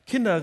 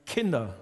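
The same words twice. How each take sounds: First: "Kinder" called out louder across the water; loud friendly call of "Kinder" from the shore. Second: Low, gentle "Kinder" to his people; a fatherly, low "Kinder"; friendly tone. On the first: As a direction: call "Kinder" loudly to the boat, falling at the end. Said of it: "rief er ihnen zu". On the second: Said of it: "in einem freundlichen Ton". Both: Retold or imitated.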